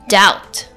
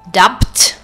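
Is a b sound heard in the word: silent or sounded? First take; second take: silent; sounded. First: No b sound is pronounced before the t. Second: A b sound is pronounced before the t. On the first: The speaker calls it right. "It's doubt" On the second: The speaker calls it wrong. "I'm not saying dubt"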